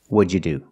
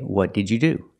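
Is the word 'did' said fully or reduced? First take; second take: reduced; fully. First: The 'did' is squeezed into a 'j' sound. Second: Every word, including 'did', is said fully. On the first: "What did you do can be pronounced, what'd you do?" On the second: "You can say, what did you do? And that's fine"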